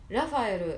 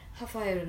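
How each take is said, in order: First: The name begins with an R-like sound. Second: The name begins with an H sound. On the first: "英語" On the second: "ポルトガル語だとハファエルって言うんですけど"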